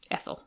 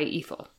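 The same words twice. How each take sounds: First: Ethel said as ETH-el, short e like in bed. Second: Ethel said as EE-thel, long ee like in see. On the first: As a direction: start Ethel with a short e, quietly. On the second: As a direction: start Ethel with a long ee sound. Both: Shown as a demonstration. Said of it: "is it Ethel or Ethel?".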